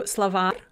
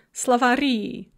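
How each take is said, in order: First: Словарь with the А stressed; stress on last syllable. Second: Словари with the final И stressed; stress on added ending. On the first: Teacher showing the singular of dictionary, словарь stressed on А. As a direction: lean on the second syllable of словарь. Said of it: "a word that's on the last syllable". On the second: Teacher showing the plural of dictionary, словари stressed on the ending. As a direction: lean on the last syllable of словари. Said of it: "that stress is going to shift onto". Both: Shown as a demonstration.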